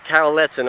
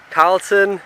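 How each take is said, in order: First: "Carleton" said in three syllables, CARL-e-ton; corrected name. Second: Name read as "Carlton", two syllables, CARL-ton; quickly says "Carlton" with no middle vowel; first misreading of the name. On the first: Correcting his own reading of the gravestone, "Carleton" in three syllables. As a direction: gives "Carleton" its middle vowel, carefully. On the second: Reading a soldier's gravestone aloud, first try, "Carlton" clipped to two syllables. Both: Real, not acted.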